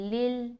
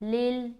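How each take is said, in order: The two takes are said the same way.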